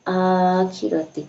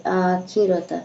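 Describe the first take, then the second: First: आखिरती with a final ee, slowly drawn; wrong ending. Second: आखिरता ending in a short a; corrected reading आखिरता. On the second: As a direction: fix it to आखिरता with a final a. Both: Shown as a demonstration. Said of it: "आ, sorry".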